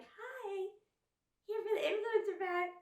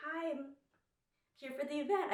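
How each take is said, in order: First: Very high, airheaded influencer greeting; dumb influencer voice. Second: High, put-on influencer greeting. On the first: Retold or imitated. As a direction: play up a ditzy influencer. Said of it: "a little more dumb". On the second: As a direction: greet the bouncer in your best influencer voice. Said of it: "my best, like, influencer voice".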